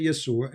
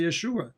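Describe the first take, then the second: First: "Yeshua" said as "Yesua", with an s; "Yeshua" with s in place of sh; Arabic pronunciation. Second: "Yeshua" with a clear sh; "Yeshua" pronounced ye-SHU-a; Hebrew pronunciation. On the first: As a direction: say "Yeshua" with a plain s sound, Arabic style. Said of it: "in Arabic, as an example, we say". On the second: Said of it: "In Hebrew, they say Yeshua". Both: Shown as a demonstration.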